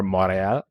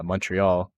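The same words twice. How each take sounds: First: "Montreal" in French, silent t, no final l; French-accented "Montreal", mon-ray-AL with the ending softened. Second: "Montreal" said the English way, t and l sounded; "Montreal" with English mon-tree-ALL; English pronunciation. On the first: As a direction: say "Montreal" like a Quebecer. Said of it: "I should say". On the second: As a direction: say "Montreal" as an anglophone. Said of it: "or Montreal, I should say". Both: Shown as a demonstration.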